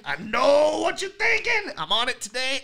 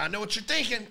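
First: Hammed-up singsong guess; mock know-it-all voice. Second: Said in the usual way. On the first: Shown as a demonstration. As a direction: stretch it out as if reading their mind. Mocking the viewer's doubt.

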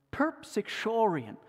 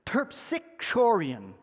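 First: Terpsichorion said again more confidently, at normal speed; second try. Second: Terpsichorion sounded out slowly syllable by syllable; careful pronunciation. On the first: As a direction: repeat Terpsichorion smoothly, settled. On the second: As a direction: try terpsichorion slowly, TERP-si-kor-ion. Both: Shown as a demonstration. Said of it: "I'm gonna try this".

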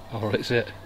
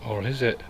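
No difference in how they are said.

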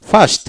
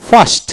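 The two takes are said the same way.

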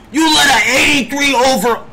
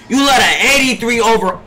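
First: Angry shout. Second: Said in the usual way. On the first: Real, not acted. Streamer raging at his teammate, angry shout. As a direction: yell it at him. Repeats the insult louder.

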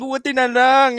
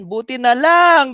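First: Said in the usual way. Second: Slow relieved. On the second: Shown as a demonstration.

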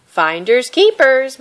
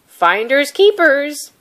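First: Loud, slow, higher taunt; called over her shoulder. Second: Loud, slow, gruff refusal; growled. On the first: My My escaping, calling back to the fisherman as a taunt. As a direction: toss it back teasingly while running. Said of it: "My My called over her shoulder". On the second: Fisherman refusing My My, growling loud and slow. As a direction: shut her down flatly. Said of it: "he growled". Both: Acted.

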